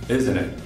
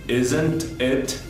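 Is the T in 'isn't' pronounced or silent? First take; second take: silent; pronounced. First: The T in isn't is left silent. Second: The T in isn't is clearly pronounced. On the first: "but generally it's not pronounced" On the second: "the T can be pronounced"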